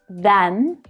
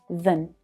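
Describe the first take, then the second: First: The vowel is a full, open 'a' sound. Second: The vowel is reduced to a weak schwa. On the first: "the a vowel sound" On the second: "these words are unstressed... reduce down to the schwa sound"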